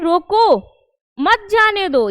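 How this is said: There is a pause right after roko. "ठहराव है, कब, रोको के जस्ट बाद"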